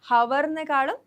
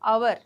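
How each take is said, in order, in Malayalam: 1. ഈ വാക്ക് 'h' ശബ്ദത്തിൽ തുടങ്ങുന്നു. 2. ഈ വാക്ക് സ്വരാക്ഷര ശബ്ദത്തിൽ തുടങ്ങുന്നു. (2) "അവർ എന്നാണ് നമ്മൾ പറയുന്നത്"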